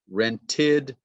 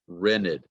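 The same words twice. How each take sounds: First: The T after the N is pronounced. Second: The T after the N is dropped.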